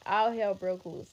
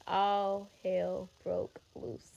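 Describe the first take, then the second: First: Said in the usual way. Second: Each word drawn out slowly for weight; all hell broke loose spoken very slowly, word by word; slow dramatic repeat. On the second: Shown as a demonstration. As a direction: let it land, very slow and heavy.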